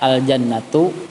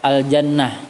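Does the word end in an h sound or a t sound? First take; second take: t sound; h sound. First: The word ends with a t and a vowel. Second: The word ends with a plain h sound. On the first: The reading continues into the next word. "bilanya wasal dibaca al-jannatu" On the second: The reading stops at this word. "bila pada waqaf dibaca al-jannah"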